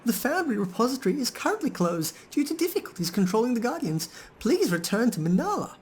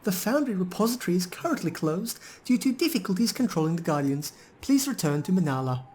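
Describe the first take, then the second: First: Very high, sing-song machine announcement; golem's second voice. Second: High, robotic recorded-announcement voice; golem's second voice. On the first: Player voicing the golem's glitchy second voice. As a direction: pitch it way up like a looping recorded notice. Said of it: "The golem reverts to its second voice". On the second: Player voicing the golem's second voice to the party. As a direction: read it up high like a stuck machine message. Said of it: "speaks again in a noticeably different voice". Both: Acted.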